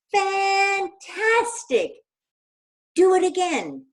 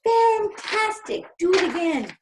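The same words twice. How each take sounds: First: High, loud, stretched cheer; a long, loud, high shout. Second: Put-on high, loud, stretched shout for kids to copy; a loud, high demo shout. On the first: Acted. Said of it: "Elizabeth shouted". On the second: Shown as a demonstration. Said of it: "Can you shout".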